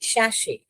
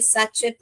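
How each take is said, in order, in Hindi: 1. यह 'sh' से शुरू होता है और आखिर में 't' नहीं है। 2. यह 's' से शुरू होता है और 't' पर खत्म होता है। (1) "इसको कैसे प्रोनाउंस करते हैं? शाशे" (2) "ये सैचेट नहीं है"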